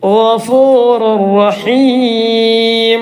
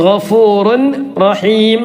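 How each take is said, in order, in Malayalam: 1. n ശബ്ദം തുടർന്നുവരുന്ന r-ൽ ലയിക്കുന്നു. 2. n ശബ്ദം r-ന് മുമ്പ് നിലനിൽക്കുന്നു. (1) "ലാമ റ വന്നാൽ റുർ റഹീം" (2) "തൻവീനിന്റെ ശേഷം റ വന്നു"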